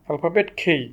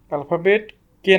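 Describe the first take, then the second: First: খেই said with a breathy aspirated kh; right letter name. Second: কে said with a plain unaspirated k; alphabet কে, crisp k without breath; wrong letter name. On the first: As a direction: say খেই with a puff of air on kh. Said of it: "alphabet কে না, alphabet খেই". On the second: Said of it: "alphabet কে না". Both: Shown as a demonstration.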